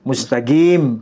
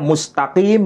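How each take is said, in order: First: It is said with a Yemeni G sound. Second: It is said with a standard Arabic Q sound.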